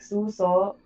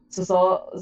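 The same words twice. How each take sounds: First: The stress is on the first syllable. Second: The stress is on the second syllable. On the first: "adding the stress on the first" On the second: "second part of the word"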